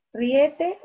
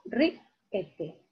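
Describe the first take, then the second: First: "Riete" said as ri-E-te; stress on middle syllable. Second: "riete" split as RI... ete, I stressed; stress on first syllable. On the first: Teacher offering a wrong option for "Riete", stress on E. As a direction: wrongly put the weight of "Riete" on E. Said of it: "la I va tildada". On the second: Teacher separating I from E in "riete", stress on I. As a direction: hit RI in "riete", then pause before ete. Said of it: "Separa la I de la E". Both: Shown as a demonstration.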